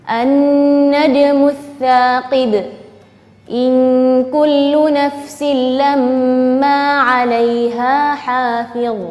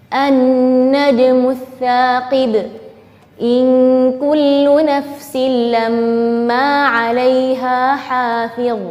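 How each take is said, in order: Both takes have the same delivery.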